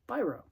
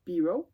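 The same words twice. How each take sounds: First: The name is said with a non-French pronunciation. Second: The name is said with a French pronunciation. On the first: "he's not French, so he pronounces it Biro" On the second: "if you were French, you would pronounce it Biro"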